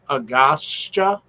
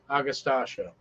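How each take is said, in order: First: It is said with three syllables, ending in sta. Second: It is said with five syllables, ending in stasia. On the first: The speaker calls it wrong. "I may be just pronouncing it wrong" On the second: The speaker calls it right. "I think I pronounced it right"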